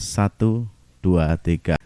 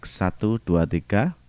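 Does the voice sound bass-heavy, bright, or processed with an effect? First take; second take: bass-heavy; bright. First: The low frequencies are boosted. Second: The high frequencies are boosted. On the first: "Kemudian low-nya" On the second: "Saya kasih tone untuk high-nya"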